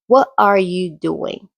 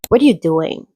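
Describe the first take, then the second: First: Every word is pronounced fully and separately. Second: The words are reduced and run together. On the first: "You probably learned how to pronounce every word" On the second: "in real life, it often sounds more like"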